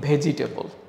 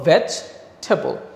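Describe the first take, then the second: First: A vowel follows 'vej', giving ve-ji-te-bol. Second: No vowel follows 'vej', giving vej-tabl. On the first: The speaker calls it wrong. "আমরা বলি ভেজিটেবল। ভেজিটেবল উচ্চারণটা আমরা কখনোই করব না" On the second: The speaker calls it right. "তাহলে আমরা বলবো ভেজ ঠ্যাবল"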